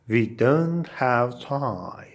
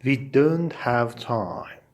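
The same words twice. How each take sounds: The two takes are said the same way.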